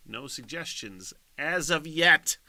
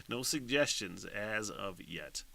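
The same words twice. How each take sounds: First: Slow, louder, higher mock announcement; drawn-out announcement. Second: Said in the usual way. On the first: Shown as a demonstration. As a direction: stretch it out like a host.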